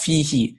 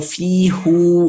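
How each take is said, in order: First: The word ends with a 'hi' sound. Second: The word ends with a 'hu' sound. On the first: This is the normal, easier form. The speaker calls it right. "That's why it's pronounced fihi" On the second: This form takes more effort to say. The speaker calls it wrong. "fi hu is a little bit too much work"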